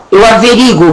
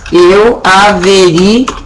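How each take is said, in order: First: "averigo" with the U dropped, as people say it; common mispronunciation. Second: "averiguo" drawn out slowly, stress on the U; old stressed form. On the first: Retold or imitated. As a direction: say "averigo" like the folks out there, swallowing the U. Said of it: "E as pessoas falavam". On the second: Shown as a demonstration. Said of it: "Olha que bonito que ele era".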